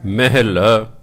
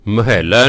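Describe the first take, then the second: First: ਮਹਿਲਾ as meh-la, no doubled l; correct pronunciation. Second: ਮਹੱਲਾ with doubled l; wrong pronunciation. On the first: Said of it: "ਕੀ ਬਣ ਗਿਆ?". (ਸਹੀ ਉਚਾਰਨ ਮਹਿਲਾ) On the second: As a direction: say ਮਹੱਲਾ as ma-hal-la. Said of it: "ਮਹੱਲਾ ਨਹੀਂ ਬੋਲਣਾ". (ਗ਼ਲਤ ਉਚਾਰਨ ਮਹੱਲਾ) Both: Shown as a demonstration.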